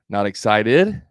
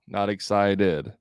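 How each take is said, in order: First: The pitch rises at the end. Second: The pitch drops off at the end. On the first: It is a question inviting more. The speaker calls it right. "That's the inflection" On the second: It confirms what the other person said. The speaker calls it wrong. "That's like confirming"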